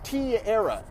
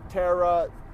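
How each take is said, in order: First: A hard T is followed by 'era'. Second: It is said as the one-part name 'Tara'. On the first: The speaker calls it wrong. "it's a hard T, and then you era" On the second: The speaker calls it right. "It's either Tara or Tara"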